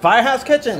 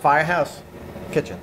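First: It is said more loudly. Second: It is said fairly quietly.

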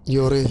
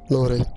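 First: The name begins with a Y sound. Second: The name begins with an L sound. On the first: The speaker calls it right. "it takes to L, but you say Yore" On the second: The speaker calls it wrong. "not Lore"

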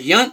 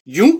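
First: The vowel is a short 'uh' sound. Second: The vowel is a long 'oo' sound. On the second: "like the two Utes"

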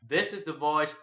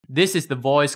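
First: The voice is recorded three feet away. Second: The voice is recorded right up close. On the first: "3 feet away from the condenser mic" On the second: "close up to the BM800 mic"

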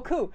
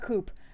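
First: The word ends without a P sound. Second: The word ends with a P sound. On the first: The speaker calls it right. "coo, not coop" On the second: The speaker calls it wrong. "not coop ... pronounce it with a P"

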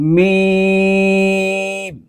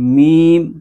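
First: The voice stays out of the nose. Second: The voice goes through the nose. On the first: The speaker calls it right. "तो इसको यूं पढ़ेंगे" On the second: The speaker calls it wrong. "मीम करके नहीं पढ़ेंगे, नाक में आवाज नहीं लेके जाएंगे"

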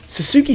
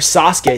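First: Sasuke is said with an English pronunciation. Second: Sasuke is said with a Japanese pronunciation. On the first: The speaker calls it wrong. "I just pronounce it in the English way" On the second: The speaker calls it right. "somebody told me that's how you say that"

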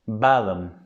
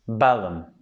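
The two takes are said the same way.

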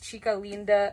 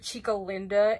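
First: It is pronounced with Spanish sounds. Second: It is pronounced with anglicized English sounds. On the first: The speaker calls it right. "the proper way that you say her name is" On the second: The speaker calls it wrong.

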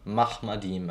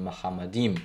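First: The short vowel after the h is dropped. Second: A short vowel is heard after the h. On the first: This is the modern Israeli pronunciation. "die Aussprache Mahmadim" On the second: This is the classical pronunciation. "anstatt von Mahamadim"

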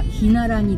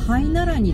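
First: The first syllable is pronounced 'hi'. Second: The first syllable is pronounced 'hai'. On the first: The speaker calls it right. "正しくはヒナラニです" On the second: The speaker calls it wrong. "ハイナラニですかって聞かれた"

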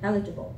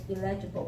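First: The stress is on the first syllable. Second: The stress is not on the first syllable. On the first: The speaker calls it right. "the stress is in the first syllable" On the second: The speaker calls it wrong. "I often heard people say illegible"

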